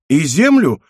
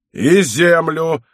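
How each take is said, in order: First: Higher, innocent asking; naive question. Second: Slow, drawn-out angry echo; higher, heavy, slow bellow; roared retort. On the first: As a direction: ask it naively, pitched up. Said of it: "наивно спросил Мацко". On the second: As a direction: throw it back as an irate roar, stretched out. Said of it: "рявкнул аббат". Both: A narrator's reading.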